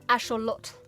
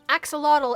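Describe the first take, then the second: First: The x sounds like sh, ending in t. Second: The x sounds like ks, ending in tl. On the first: The speaker calls it right. "actually pronounced axolotl" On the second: The speaker calls it wrong. "Everyone says axolotl wrong"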